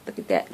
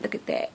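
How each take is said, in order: First: Said in the usual way. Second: Breathy whispered repeat. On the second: Shown as a demonstration. To her viewers, showing off tape, whispered. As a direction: whisper it as if sharing a secret.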